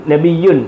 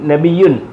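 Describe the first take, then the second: The two takes are said the same way.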